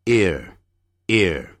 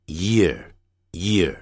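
First: "ear" begun directly on the vowel; without y. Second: "year" with a distinct y onset; with y glide. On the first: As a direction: say "ear" slowly with no y. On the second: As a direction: lead into "year" with a clear y. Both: Shown as a demonstration. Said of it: "有差别的哦".

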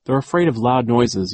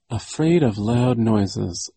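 First: Said in the usual way. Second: Slowly, thinking it over; slow repetition while pondering; slow thoughtful repeat. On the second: A narrator's reading. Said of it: "Violet repeated".

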